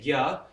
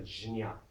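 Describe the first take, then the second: First: It is said as g followed by ya. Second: It is said as j followed by nya. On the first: "in Hindi we say gya" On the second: "ja and ya, jnya"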